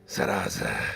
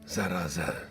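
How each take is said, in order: First: The word is said with strong intensity. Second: The word is said with mild intensity.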